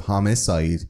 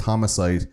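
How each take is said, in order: First: Homicide with its usual short middle vowel; correct homicide. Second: Homicide with a full "ah" in the middle; mispronounced homicide. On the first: Shown as a demonstration. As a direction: say homicide the standard way. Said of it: "instead of homicide". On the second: Retold or imitated. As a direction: say homicide as "hom-AH-cide". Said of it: "the way he pronounced homicide".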